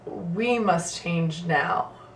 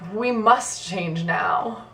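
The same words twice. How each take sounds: First: The stress falls on the word "we". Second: The stress falls on the word "must". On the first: Others already changed, and now it is our turn. "putting emphasis on each of the words individually. So the first one would be" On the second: There is no choice; the change is required. "which implies that we have to"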